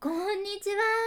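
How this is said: It is said in a fawning, coaxing way.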